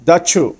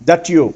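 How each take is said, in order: Both takes have the same delivery.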